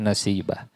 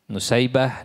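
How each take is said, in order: First: The name begins with 'na' and has 'si'. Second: The name begins with 'nu' and has 'sai'. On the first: "ada yang membacanya Nasibah" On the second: "ada yang membacanya Nusai"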